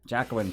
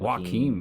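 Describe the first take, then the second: First: The name is said like 'Jacqueline'. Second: The name is said like 'Joaquin'. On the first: The speaker calls it wrong. "guys corrected me that corrected me on that about ten years in" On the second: The speaker calls it right. "What is it?"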